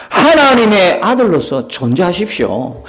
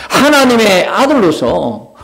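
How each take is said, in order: First: Said in the usual way. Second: 하나님의 아들로서 drawn out slowly, word by word; slow insistent repeat. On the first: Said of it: "하나님의 아들로서, repeated". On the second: Acted. Peter presses Jesus, slow insistent stress.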